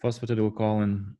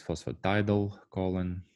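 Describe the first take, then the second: First: "phosphatidylcholine" with TIDYL said with short i sounds; "phosphatidylcholine" with a short "tid", not "tide"; preferred pronunciation. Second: "phosphatidylcholine" with TIDYL said like "tidal"; "phosphatidylcholine" pronounced phospha-TIDAL-choline; alternative pronunciation. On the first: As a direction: say "phosphatidylcholine" as fos-fa-TIH-dil-choline. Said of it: "I prefer phosphatidyl". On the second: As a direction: say "phosphatidylcholine" with a long eye vowel, fos-fa-TIE-dul-choline. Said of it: "some people may pronounce this". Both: Shown as a demonstration.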